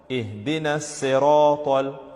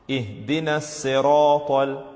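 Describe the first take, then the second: Both takes have the same delivery.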